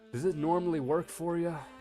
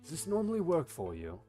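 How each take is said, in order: First: The line is said in a plain way. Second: The line is said in a cooler way.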